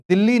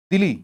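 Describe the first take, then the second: First: दिल्ली with a long doubled l, like India's capital Delhi; दिल्ली said the Indian way, the l held long and stressed; Delhi said wrong. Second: दिल्ली with a short single l, said like Dili; दिल्ली corrected to a light short l, Dili. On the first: Teacher voices the wrong Delhi answer with a long l. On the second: Teacher gives the right name of East Timor's capital, Dili. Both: Shown as a demonstration. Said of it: "D I L I".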